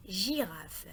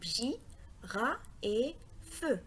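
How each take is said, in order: First: Said in the usual way. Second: GIRAFE broken into J... RA... FEU; découpage en syllabes. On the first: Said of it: "Le mot girafe". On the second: Shown as a demonstration. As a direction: give each beat of GIRAFE alone, J, RA and FEU. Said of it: "est composé de trois syllabes". (GIRAFE découpé lentement, syllabe par syllabe)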